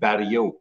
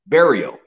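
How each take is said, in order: First: The name is given its French pronunciation. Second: The name is given its English pronunciation. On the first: "my real last name is French, and it's pronounced Barriault" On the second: "In English, it's pronounced Barriault"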